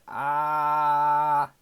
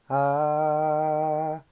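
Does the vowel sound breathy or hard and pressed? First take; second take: pressed; breathy. First: The vowel sounds hard and pressed, with no breath. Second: The vowel is mixed with audible breath. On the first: The speaker calls it wrong. "호흡 없이 만약에 어떤 소리를 낸다 했을 때는 같은 아를 낸다. ... 이런 식으로 좀 단단한 소리가 들리죠" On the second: The speaker calls it right. "이런 식으로 호흡과 함께 소리를 섞으면서"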